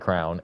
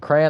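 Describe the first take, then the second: First: It is said as one syllable, like crown. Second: It is said as two syllables, cray-on. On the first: The speaker calls it wrong. "I will never say crown. It's not it's not crown" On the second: The speaker calls it right. "Crayon, I will never say crown"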